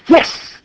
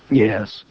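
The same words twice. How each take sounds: First: The yes sounds cheerful and happy. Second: The yes sounds flat and not happy. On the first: The speaker is truly content. The speaker calls it right. "Do you want to say it a different way? Say like" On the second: The speaker is not really content. The speaker calls it wrong. "you didn't sound completely happy"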